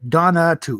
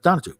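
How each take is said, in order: First: The middle syllable is said fully and clearly. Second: The middle syllable is said very lightly. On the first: The speaker calls it wrong. "it's not pronounced that way though" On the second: The speaker calls it right. "the middle syllable is very subtle"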